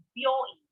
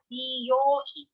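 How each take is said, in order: First: "byoin" with byo as one syllable; contracted. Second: "ryoi" as bi-yo-in, with bi on its own; separate syllables. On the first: Teacher giving learners the word for hospital, "byoin" contracted. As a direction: merge b and yo in "byoin". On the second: Teacher giving learners the word for salon, "ryoi" uncontracted. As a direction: draw out "ryoi" with bi and yo apart. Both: Shown as a demonstration. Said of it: "pronounce it very differently".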